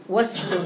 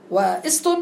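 First: "واست" run together as "wast", no glottal stop; linked hamzat wasl. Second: "واست" split as "wa-ist", with a glottal stop; deliberately cut hamza. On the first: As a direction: drop the alif in "واست" after the waw. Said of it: "لأنها كلها مسبوقة بواو". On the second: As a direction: break "واست" after the waw and sound the i. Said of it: "ولكن أريد أن أقطع". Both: Shown as a demonstration.

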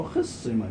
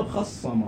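First: خصم said "khissima", with i after kh; short i in the first syllable of خصم; kasra on the khaa. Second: خصم said "khassama", with a after kh; short a in the first syllable of خصم; fatha on the khaa. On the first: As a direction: say خصم as khis-si-ma, doubled s. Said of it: "بعد هذا السماع يعني من العرب بهالشكل". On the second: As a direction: say خصم as khas-sa-ma, doubled s. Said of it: "ما قالوا". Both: Shown as a demonstration.

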